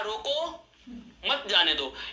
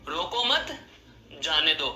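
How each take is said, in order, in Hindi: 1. विराम पहले शब्द के ठीक बाद आता है। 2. विराम दूसरे शब्द के ठीक बाद आता है। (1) "यानी कि इसको रोक लीजिए, इसको जाने नहीं देना है" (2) "रोको मत को एक साथ बोला, फिर जाने दो को एक साथ बोला, बीच में मैंने आराम लिया"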